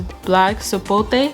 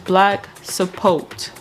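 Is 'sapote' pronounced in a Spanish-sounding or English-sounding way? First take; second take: Spanish-sounding; English-sounding. First: Sapote is pronounced with a Spanish-sounding flavor. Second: Sapote is pronounced with an English-sounding flavor. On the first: The speaker calls it wrong. "it just had like a little Spanish vibe to it" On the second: The speaker calls it right. "proper pronunciation"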